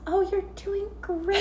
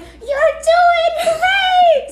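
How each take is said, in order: First: It is said quietly, as heard from far away. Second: It is said loudly, almost screaming.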